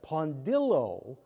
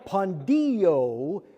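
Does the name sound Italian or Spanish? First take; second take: Italian; Spanish. First: It is said with an Italian pronunciation. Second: It is said with a Spanish pronunciation. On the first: The speaker calls it right. "now that's Italiano" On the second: The speaker calls it wrong. "could pass for Spanish"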